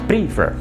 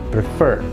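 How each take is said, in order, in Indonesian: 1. Tekanannya ada pada suku kata pertama. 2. Tekanannya ada pada suku kata kedua. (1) "Penekanannya bukan yang di awal" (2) "tapi pada suku kata yang kedua"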